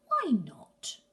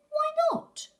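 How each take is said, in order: First: Breathy whispered repeat. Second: High, loud pleading cry; high shout. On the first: Gruffalo's child asks again, now whispering. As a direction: drop it to a whisper. Child pleads with her father. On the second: Gruffalo's child begs her dad, high loud cry. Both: Acted.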